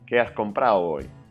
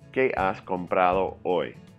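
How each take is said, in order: First: Sounds are dropped and squished together. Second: Every sound is pronounced clearly and separately. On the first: It sounds like natural native speech. The speaker calls it right. "A native would say" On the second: It sounds mechanical and unnatural. The speaker calls it wrong. "that pronunciation sounds mechanical, false"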